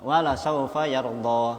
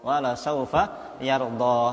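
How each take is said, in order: No difference in how they are said.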